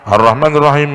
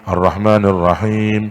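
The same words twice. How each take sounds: First: The long vowels are cut short and rushed. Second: The long vowels are held for their full length. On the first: Letters of the recitation are dropped. The speaker calls it wrong. "itu kan mengurangi huruf itu" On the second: Every letter of the recitation is kept. The speaker calls it right. "itu harus panjang"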